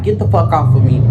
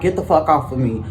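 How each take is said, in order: First: Louder, hard retold yell at him; said hardest. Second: Said in the usual way. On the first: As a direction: bark "Get the fuck off of me" louder and hard. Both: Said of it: "I said that hardest".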